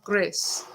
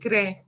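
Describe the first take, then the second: First: The final S is pronounced. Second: The final S is silent. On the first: The speaker calls it wrong. "not Grès. Shouldn't pronounce the S" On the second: The speaker calls it right. "It should be Grès"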